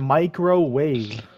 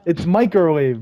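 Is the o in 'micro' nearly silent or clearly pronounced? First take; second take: pronounced; nearly silent. First: The o in micro is clearly pronounced. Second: The o in micro is nearly silent. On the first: The speaker calls it wrong. "Y'all are saying microwave" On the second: The speaker calls it right. "And like the O is basically silent"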